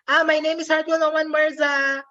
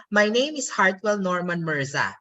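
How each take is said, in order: First: "Ah, my name is Hartwell Norman Mirza" held high to the end; high sustained tune through to "Mirza"; rising Filipino-English intonation. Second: "My name is Hartwell Norman Mirza" going down at the end; statement tune, settling down on "Mirza"; falling intonation. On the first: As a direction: keep "Mirza" up high, never falling. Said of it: "They go up". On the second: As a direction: let the tone drop on the final "Mirza". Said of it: "I go down at the end of the sentence". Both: Shown as a demonstration.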